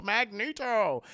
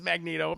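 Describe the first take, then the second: First: "Magneto" slowly stretched, hammed-up; drawn-out name. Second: Said in the usual way. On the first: Streamer chides the punning villain, "Magneto" slowly drawn out. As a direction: stretch every syllable of "Magneto" mockingly.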